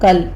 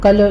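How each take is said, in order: First: The final l ends in a clean stop. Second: The final l is released with a jolt. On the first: The speaker calls it right. "कल स्टॉप करना इसको" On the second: The speaker calls it wrong. "लाम के ऊपर आपने झटका नहीं देना, कल नहीं कहना"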